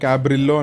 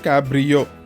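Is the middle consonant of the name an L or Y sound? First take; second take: L sound; Y sound. First: The double letter is said as an L sound. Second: The double letter is said as a Y sound. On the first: "మామూలుగా మనం ఇంగ్లీష్లో పలకాలంటే దాన్ని క్యాబ్రిల్లో అని పలుకుతాం" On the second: "Spanish నుంచి రావడం వల్ల ... ఆ ఎల్ఎల్ యా అవుతుంది"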